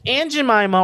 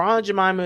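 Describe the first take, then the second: First: "Aunt" said like the insect ant; "Aunt Jemima" as "Ant Jemima"; short a, as in cat, on "Aunt"; "ant" pronunciation. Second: "Aunt" with an open ah; "Aunt Jemima" as "Ahnt Jemima"; broad ah vowel on "Aunt"; "ahnt" pronunciation. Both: Shown as a demonstration. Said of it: "how do you say it? Aunt, Aunt".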